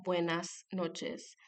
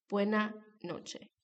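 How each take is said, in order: First: Slow "buenas noches" with both final S sounds clear; careful Mexican-style "buenas noches", every S pronounced; retained S. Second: "buena noche" with the final S sounds dropped to a breath; aspirated S. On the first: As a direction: hiss the final S in each word of "buenas noches". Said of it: "en el español de México y Estados Unidos se escucha". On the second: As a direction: let both word endings go open in "buena noche". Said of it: "aspirada, lo que hace que la pronunciación sea más parecida". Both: Shown as a demonstration.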